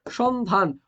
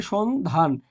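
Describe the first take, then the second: First: Said in the usual way. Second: সন্ধান slow, split into two parts; slow teacherly সন্ধান; pronunciation demo. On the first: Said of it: "হবে কি". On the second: Shown as a demonstration. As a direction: sound out সন্ধান with a gap between syllables. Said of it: "সন্ধান হবে কি সন্ধান".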